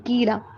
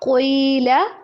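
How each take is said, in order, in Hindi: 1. यह हल्की, पतली k ध्वनि से शुरू होता है। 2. यह भारी, गहरी q ध्वनि से शुरू होता है। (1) "कीला पढ़ लेते हैं" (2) "क़ाफ को मोटा करके पढ़ना है"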